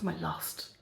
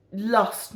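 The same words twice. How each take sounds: First: My lust murmured as an aside; quiet. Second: Said in the usual way. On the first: Shown as a demonstration.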